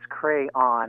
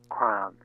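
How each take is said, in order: First: The word is said in two syllables. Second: The word is said in one syllable. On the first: The speaker calls it right. "in two syllables" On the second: The speaker calls it wrong. "not one, or triphthong"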